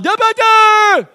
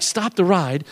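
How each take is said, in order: First: Loud, high, slurred holler; drawn-out yell with the words mangled; garbled yell. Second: Said in the usual way. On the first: Retold or imitated. Dizzy rider yelling to the operator, garbled yell. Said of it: "yelled out". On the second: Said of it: "I tried to yell to the guy".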